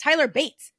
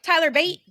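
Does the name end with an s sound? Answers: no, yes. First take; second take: yes; no. First: The name ends with an s sound. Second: The name ends without an s sound. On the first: The speaker calls it right. "It's Tyler Bates. That's his name" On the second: The speaker calls it wrong. "Tyler Bate is not Tyler Bate"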